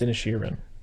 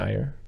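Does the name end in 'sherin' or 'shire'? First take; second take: sherin; shire. First: The name ends with the sounds 'sherin'. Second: The name ends with the sound 'shire'. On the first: The speaker calls it right. "But it's Inisherin" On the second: The speaker calls it wrong. "For like a week, I was saying Inishir"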